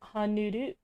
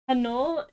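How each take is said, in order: First: The name is said with a Japanese accent. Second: The name is said plainly, ending on l.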